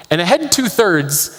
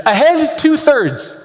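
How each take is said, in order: First: Said in the usual way. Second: High, slow, drawn-out command; called-out order. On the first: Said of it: "means that the ship should". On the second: Retold or imitated. Captain calling an order to his crew, high and slow. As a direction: bark it like a sub captain.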